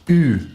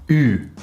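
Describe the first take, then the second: First: The vowel is a front rounded 'u' sound. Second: The same.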